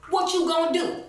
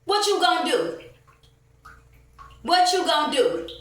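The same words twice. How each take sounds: First: High, louder sneering taunt, imitating the worker; mocking taunt. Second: High, loud repeated challenge; defiant shout. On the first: Mimicking the worker's taunt to her with high mockery. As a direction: throw his challenge back in a mocking voice. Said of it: "and say, "Oh, you telling?". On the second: Real, not acted. Ranting woman shouting her dare at the store staff. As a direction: shout it back at them, daring them.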